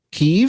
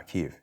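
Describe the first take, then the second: First: Kyiv said kee-EEV with a high rising question; incredulous Kyiv. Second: Kyiv said calmly as kee-EEV, low and even; correct Kyiv. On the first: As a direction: question the word Kyiv in disbelief. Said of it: "It, it is?". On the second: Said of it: "that's the proper pronunciation". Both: Shown as a demonstration.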